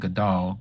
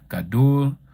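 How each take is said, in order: First: The second vowel sounds like 'ah'. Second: The second vowel sounds like 'oo'. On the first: The speaker calls it wrong. "I don't say Gadal" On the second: The speaker calls it right. "Gadul with the U between the D and the L"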